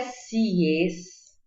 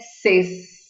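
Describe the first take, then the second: First: The vowel sounds like 'ie'. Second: The vowel is a plain 'e'. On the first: "Não é sies" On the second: "não é ses"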